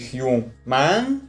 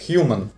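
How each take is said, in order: First: The final syllable has a full open 'a' vowel. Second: The final syllable has a reduced schwa vowel. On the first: The speaker calls it wrong. "не «human»" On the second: The speaker calls it right. "будет давать звук «шва»"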